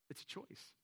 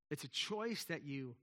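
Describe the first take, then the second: First: Whispered. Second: Said in the usual way. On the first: Real, not acted.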